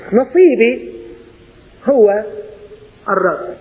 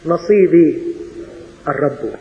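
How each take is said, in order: First: Said in the usual way. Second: نصيبي الرب said without هو, falling low on الرب; sweeter version. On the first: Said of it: "حلو، لكن أحلى". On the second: Shown as a demonstration. Preacher offers the sweeter form without هو, in a low falling voice. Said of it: "لكن أحلى".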